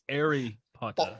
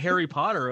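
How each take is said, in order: First: It is said in a British accent. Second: It is said in an American accent. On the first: "It's Harry Potter" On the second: "They don't say Harry Potter overseas"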